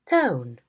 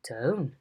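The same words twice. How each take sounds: First: The pitch falls sharply from high. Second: The pitch rises and then falls. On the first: "a high fall" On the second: "a rise fall"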